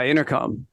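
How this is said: It is slurred lazily, like someone just waking. "say it just like you just woke up"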